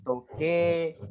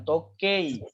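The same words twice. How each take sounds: First: Toke with a long, slow "e"; slow teaching demo of the right form; correct pronunciation. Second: Tokei with a spelled-out "ei", said slowly; slow teaching demo of the wrong form; wrong pronunciation. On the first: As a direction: draw out the final "e" of "toke". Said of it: "tapi toke". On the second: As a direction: say "tokei" the wrong way, ei split apart. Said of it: "bukan tokei". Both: Shown as a demonstration.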